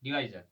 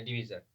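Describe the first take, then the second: First: डिवाइजर said di-VAI-zar, falling at the end; "vai" pronunciation. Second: डिवीजर said di-VEE-zar, falling at the end; "vee" pronunciation. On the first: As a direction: put an "eye" sound inside डिवाइजर. (डिवाइजर को "वाइ" के साथ बोलें) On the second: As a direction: put a long "ee" inside डिवीजर. (डिवीजर को "वी" के साथ बोलें) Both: Shown as a demonstration. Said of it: "चलो pronunciation कोई बात नहीं".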